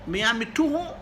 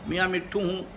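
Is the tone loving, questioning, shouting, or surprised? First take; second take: questioning; loving. First: It is said with a questioning tone. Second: It is said softly and affectionately. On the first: "इस मरतबा लहजा सवाल लिया होता" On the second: "बड़े प्यार से"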